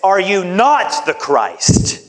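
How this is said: It is said in a scornful, mocking tone. It is an insult. "something in the way that this man said this that was insulting"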